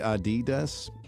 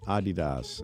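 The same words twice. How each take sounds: First: The stress is on the second syllable. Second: The stress is on the first syllable. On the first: This is the usual American way. The speaker calls it wrong. "I say Adidas, and I say it wrong" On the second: This follows the founder's name. The speaker calls it right. "I'll start saying it Adidas"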